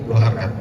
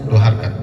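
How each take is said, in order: The two takes are said the same way.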